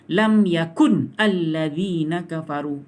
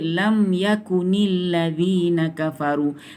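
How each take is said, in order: First: Yakun ends on a stopped n before the next word. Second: Yakun joins the next word with an added i. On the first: The speaker calls it wrong. "saya baca kalau letak ni baris mati" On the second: The speaker calls it right. "Rasulullah ajar kita baca lam yakunil ladzina kafaru"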